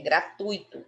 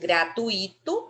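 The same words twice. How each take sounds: First: The 'u' and 'i' join in one syllable. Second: The 'u' and 'i' are split into two syllables. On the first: The speaker calls it right. "É gratuito. O tui é junto" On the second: The speaker calls it wrong. "se fosse gratuito, aí seria gratuito. Mas não é assim"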